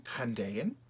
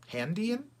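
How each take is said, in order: First: "Handayan" with a DAY middle, questioning rise; trying a pronunciation. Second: "Handian" as HAN-dee-an, high and loud, rising; trying another pronunciation. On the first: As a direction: say "Handayan" as han-DAY-an, testing it. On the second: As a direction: test "Handian" with a DEE middle, much higher. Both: Shown as a demonstration.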